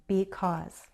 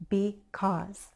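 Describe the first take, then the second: Both takes have the same delivery.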